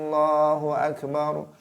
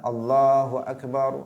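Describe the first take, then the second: First: The first a of akbar is drawn out long. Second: The ba syllable of akbar is drawn out long. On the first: It turns the phrase into a doubting question. "dibaca a panjang" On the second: It changes the word to mean a big drum. "jangan sampai kemudian uh, memanjangkan lafaz ba"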